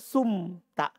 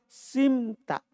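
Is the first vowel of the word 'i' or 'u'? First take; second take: u; i. First: The first vowel is a 'u' sound. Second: The first vowel is an 'i' sound. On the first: It could be confused with the active form. The speaker calls it wrong. "Jangan bilang sumta" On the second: It stays distinct from the active form. The speaker calls it right.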